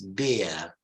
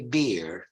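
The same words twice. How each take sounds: First: It is said with a British accent. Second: It is said with an American accent. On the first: "In British English, it's beer" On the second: "In American English, you say beer"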